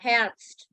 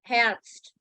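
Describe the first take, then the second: First: The E vowel is clear and prominent. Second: The same.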